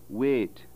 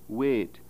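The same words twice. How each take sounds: First: The vowel is a pure, steady vowel. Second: The vowel is a pure, steady vowel.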